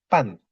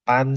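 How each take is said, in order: First: A strong falling tone on pan; fourth tone. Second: Pan held long and level; first tone. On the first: Teacher contrasting two readings, pan falling steeply. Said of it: "lo tulis nada empat". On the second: Teacher contrasting two readings, pan on a long level tone. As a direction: keep pan high and even. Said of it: "ini nada satu". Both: Shown as a demonstration.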